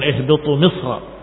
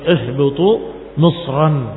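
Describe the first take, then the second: First: The last word ends without a final n. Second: The last word ends with a final n. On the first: The speaker calls it wrong. "bukan ihbitu misra" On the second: The speaker calls it right. "tetapi ihbitu misran, itu qiraah jumhur"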